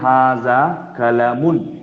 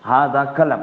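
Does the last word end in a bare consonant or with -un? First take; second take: with -un; bare consonant. First: The last word ends with an added -un sound. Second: The last word ends on a bare consonant. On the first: This is the full formal reading. "अगर पूरा पढ़ेंगे तो पढ़ेंगे हाजा कलमुन" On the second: This is how it is said in conversation. "बल्कि हम आखिर को सुकून कर देते हैं"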